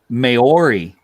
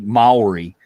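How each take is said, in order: First: It is said with an English-style pronunciation. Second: It is said with a Māori-style pronunciation. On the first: The speaker calls it wrong. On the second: The speaker calls it right.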